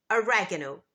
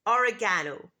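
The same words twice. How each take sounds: First: Oregano stressed on the second syllable, o-REG-a-no; American oregano. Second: Oregano stressed on the third syllable, or-e-GAH-no; British oregano. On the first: Teacher models American oregano. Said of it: "But in American English, it's". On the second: Teacher models British oregano. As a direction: lean on the GA in oregano. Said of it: "In British English, it's". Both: Shown as a demonstration.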